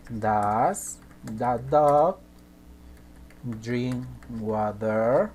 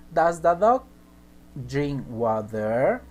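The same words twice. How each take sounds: First: Each word stretched out, very slow; very slow dictation. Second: Said in the usual way. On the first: Shown as a demonstration. Teacher dictating the question very slowly to students. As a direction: spell it out slowly for the class. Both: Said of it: "A ver, por ejemplo".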